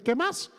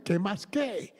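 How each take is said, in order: First: "qué más" said casually, rising high on "más"; "qué más" with a high lift at the end; Colombian greeting. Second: "¿qué más qué?" echoed back, mildly confused; "¿qué más qué?" as a lightly voiced bewildered reply; puzzled echo. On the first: Shown as a demonstration. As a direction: sing out "qué más" as a friendly Colombian hello. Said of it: "Ese es el". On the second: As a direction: repeat "¿qué más qué?" as a baffled question. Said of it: "yo me quedé así porque".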